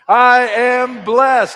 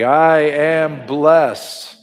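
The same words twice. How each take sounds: First: It is shouted loudly at full volume. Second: It is said firmly with strong conviction. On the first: "shouting from the mountaintops" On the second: "with conviction"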